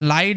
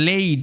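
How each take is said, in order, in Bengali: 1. স্বরধ্বনিটি 'eye'-এর মতো শোনায়। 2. স্বরধ্বনিটি 'ay'-এর মতো শোনায়। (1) "অনেকে ভাবতে পারে যে এটার উচ্চারণটা লাইড, লাইড না" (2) "ওই এআই এর উচ্চারণটা এই এরকম ভাবে হয়"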